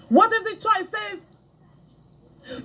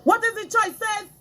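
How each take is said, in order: First: Slow drawn-out question. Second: Said in the usual way. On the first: Shown as a demonstration. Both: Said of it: "asked again slowly".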